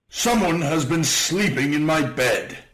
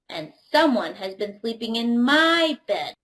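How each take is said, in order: First: It is said in a great big voice. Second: It is said in a medium-sized voice.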